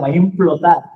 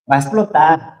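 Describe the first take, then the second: First: Implotar stressed as the correction. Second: Explotar said with a falling stress. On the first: Preacher correcting himself, stressing implotar. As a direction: hit implotar to set it against explotar. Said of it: "no, no va a explotar". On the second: Preacher giving God's verdict, stressing explotar. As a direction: land firmly on explotar. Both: Shown as a demonstration.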